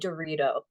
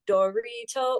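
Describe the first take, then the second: First: The word flows in a natural speech rhythm. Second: The word is broken up into separate syllables. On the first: The speaker calls it right. "it needs to be Dorito" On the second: The speaker calls it wrong. "it can't be like Dorito or whatever. It, it broke it up too much"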